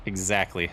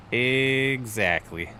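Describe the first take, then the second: First: Said in the usual way. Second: Very slow EXACTLY, first syllable stretched long; drawn-out EXACTLY. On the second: Real, not acted. Repeats the word, drawn out.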